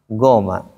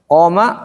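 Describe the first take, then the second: First: It begins with a plain hard g sound. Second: It begins with a deep throat q sound. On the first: The speaker calls it wrong. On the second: The speaker calls it right.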